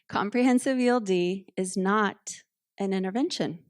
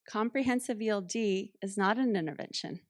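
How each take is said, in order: First: The sentence is said noticeably louder. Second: The sentence is said at normal loudness.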